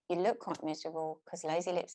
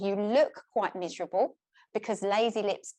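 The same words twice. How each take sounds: First: The words are mumbled with little lip movement. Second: The words are clearly articulated with active lips. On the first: The message is hard to hear and understand. The speaker calls it wrong. "So this is what lazy lips do. They don't move much when you're talking" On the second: The message is easy to hear and understand. The speaker calls it right. "what I was actually saying to you was"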